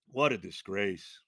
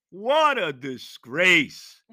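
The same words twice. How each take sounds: First: Dropped low and slow; low disgusted mutter. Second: Slow, louder outcry; loud drawn-out disgust. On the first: Fan muttering low about the officiating. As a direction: sink it in quiet disgust. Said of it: "low disgusted repeat". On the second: Fan crying out slowly at the disgrace. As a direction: hurl it out slowly. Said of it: "earlier loud take". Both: Real, not acted.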